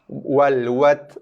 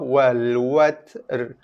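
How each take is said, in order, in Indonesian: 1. R akhir sama sekali tidak dibunyikan. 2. Huruf t selesai dulu sebelum r yang terpisah. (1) "Ra tak bunyi langsung" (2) "Bila waqaf"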